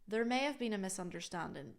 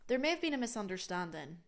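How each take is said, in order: Both takes have the same delivery.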